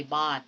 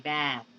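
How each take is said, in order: First: "bat" with a flat Filipino a; the wrong way, a as in father. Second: "bat" with the open front ae; open ae sound. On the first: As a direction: mistaken a in bat. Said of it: "You do not say bat". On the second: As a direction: drop the jaw for ae in "bat". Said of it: "but you say bat". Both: Shown as a demonstration.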